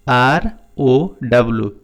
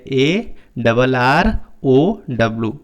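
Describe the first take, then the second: First: Said in the usual way. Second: ए डबल आर ओ W spelled slowly, with डबल for the two R's; slow spelled-out letters. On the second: Shown as a demonstration. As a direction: read each letter slowly, saying डबल आर. (ए डबल आर ओ W धीरे-धीरे, डबल आर बोलकर) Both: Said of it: "या आप इसे ऐसे पढ़ सकते हैं".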